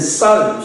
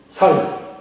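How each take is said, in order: First: The word starts with a tense s sound. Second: The word starts with a plain s sound. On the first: "우리는 쌀 쉽게 발음하는데" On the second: "경상도 사람들이 ... 살 이렇게 발음하는"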